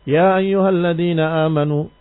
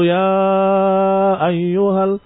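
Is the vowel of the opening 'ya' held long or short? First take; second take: short; long. First: The opening vowel is held only briefly. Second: The opening vowel is drawn out long. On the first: The optional lengthening is not applied. The speaker calls it right. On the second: The optional lengthening is applied in full. The speaker calls it wrong. "Tidak perlu"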